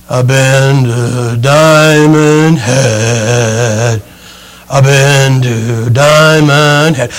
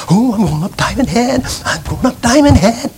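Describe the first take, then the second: First: Very slow, lower, dragging exhausted drone; worn-out hikers. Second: Mock-eager, softer sing-song chant; eager hikers. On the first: Retold or imitated. Preacher imitates spent hikers coming down, slow exhausted drone. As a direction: drag each word out like you can barely stand. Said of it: "And then there's the people coming down". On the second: Preacher imitates eager tourists starting the climb, mock-excited chant. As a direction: bounce it like giddy tourists heading up. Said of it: "So they're excited about going up Diamond Head".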